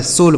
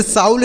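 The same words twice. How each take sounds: First: सोल said with a long "o" and no "au"; correct pronunciation. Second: साउल said with an "au" diphthong as in sound; wrong pronunciation. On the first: Teacher corrects the misreading for learners, सोल with a long "o". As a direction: say सोल with the vowel of "go". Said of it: "सोल पढ़ेंगे". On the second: Teacher shows learners the reading to avoid, mispronounced साउल with "au". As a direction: say साउल, rhyming with English "howl". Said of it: "इसे साउल नहीं पढ़ेंगे". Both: Shown as a demonstration.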